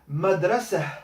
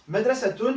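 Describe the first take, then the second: First: The word ends with a soft h sound. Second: The word ends with a full t-un ending.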